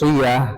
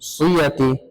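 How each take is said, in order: First: The word ends with an h sound. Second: The word ends with ti and a vowel. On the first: The speaker calls it right. "গোলটা একটা হার উচ্চারণ হয়ে যাবে" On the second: The speaker calls it wrong. "এরকম হবে না"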